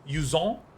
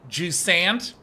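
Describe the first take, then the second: First: The name is said in a French-style way. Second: The name is said in an American-style way.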